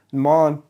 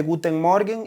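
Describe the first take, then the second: First: "Morgen" swallowed to a short nasal "mon"; clipped local greeting. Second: "Guten Morgen" said in full, every syllable clear; textbook German greeting. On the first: Teacher imitating a local in Germany, clipped nasal "mon". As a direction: squash "Morgen" into one nasal syllable, "mon". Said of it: "alguien te va a decir". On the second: Teacher showing the classroom greeting, careful textbook German. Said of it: "y ya, está bien". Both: Shown as a demonstration.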